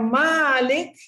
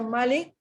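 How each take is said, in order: First: The first vowel is said long. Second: The first vowel is said short. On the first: "kita baca dengan panjang" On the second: "kita baca dengan pendek"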